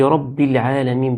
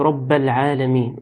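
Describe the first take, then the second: First: The word rabb ends with an i-vowel. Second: The word rabb ends without an i-vowel. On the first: The speaker calls it right. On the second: The speaker calls it wrong.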